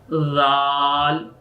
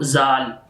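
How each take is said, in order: First: It begins with a 'th' sound, tongue between teeth. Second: It begins with a plain 'z' sound. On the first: The speaker calls it right. "you put of your tongue between of your teeth and then you say of this letter Zal" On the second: The speaker calls it wrong. "not Zal"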